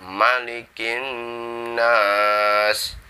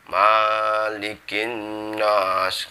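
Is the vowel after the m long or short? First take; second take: short; long. First: The vowel after the m is kept short. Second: The vowel after the m is drawn out long. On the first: The speaker calls it right. "Mimnya itu pendek" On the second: The speaker calls it wrong. "Mimnya maliki nggak boleh dibaca malikin nas"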